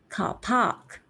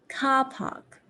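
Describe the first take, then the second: First: The stress is on the second syllable. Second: The stress is on the first syllable. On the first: The speaker calls it wrong. "the second one is a bit more unnatural because I'm stressing on the wrong sound" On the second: The speaker calls it right. "The first one is car park"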